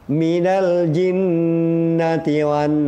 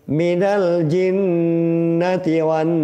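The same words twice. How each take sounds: The two takes are said the same way.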